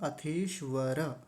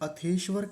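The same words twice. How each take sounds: First: The final r is followed by a vowel. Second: The final r is clipped with no vowel. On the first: The speaker calls it right. "क्योंकि र जो है यानी रेफ जो है वो पूरा है" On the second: The speaker calls it wrong. "इसमें गलती क्या होती है, अथेश्वर कहते हैं"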